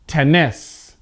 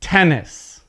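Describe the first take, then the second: First: TenNIS, "Tennis" stressed on its last syllable; deliberately misplace the stress onto the end of "Tennis"; weak start, punched NIS in "Tennis"; stress on second syllable. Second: TENnis, "Tennis" stressed on its first syllable. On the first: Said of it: "I'm gonna mispronounce it". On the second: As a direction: hit the start of "Tennis", let the end fall. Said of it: "this is pronouncing it correctly". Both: Shown as a demonstration.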